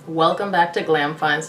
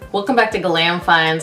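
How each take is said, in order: First: It is said in a gloomy tone. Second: It is said in a cheerful tone.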